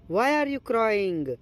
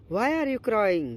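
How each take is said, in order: Both takes have the same delivery.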